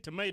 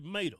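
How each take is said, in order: First: It is said in a standard accent. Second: It is said in a Southern accent. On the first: "he wouldn't say tomato" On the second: "he'd say tomato"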